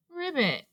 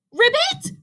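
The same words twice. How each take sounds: First: High, soft, sorrowful croak; small sad frog sniffle; sniffled. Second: Very high, incredulous question; cried out. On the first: Ribbit upset over fallen Robot, sniffling softly. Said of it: "sniffled Ribbit". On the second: Rabbit throwing the frog's word back, crying out. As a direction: squawk it in disbelief. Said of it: "cried Rabbit". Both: A narrator's reading.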